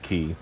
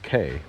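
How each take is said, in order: First: The vowel rhymes with "see". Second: The vowel rhymes with "day". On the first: This is how the boat's recording says it. "recording says Key" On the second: This is how the ship's host says it. "cruise director says K"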